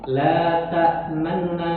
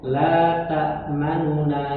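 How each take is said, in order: First: The middle vowel is quick and only partly voiced. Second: The middle vowel is voiced fully at normal length. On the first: "jadi agak cepat" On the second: "kalau misal kita normal baca"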